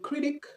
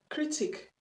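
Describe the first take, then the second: First: It is said in an American accent. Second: It is said in a British accent. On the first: "l'accent américain" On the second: "c'est l'accent british"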